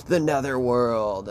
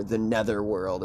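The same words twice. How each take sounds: First: NETHERWORLD drawn out slowly; mock-dramatic. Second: Said in the usual way. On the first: Storyteller naming the place behind the mirror, mock-dramatic. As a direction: give "netherworld" a slow, ominous-style stretch. Repeats name for dramatic effect.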